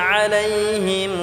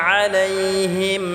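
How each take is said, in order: The two takes are said the same way.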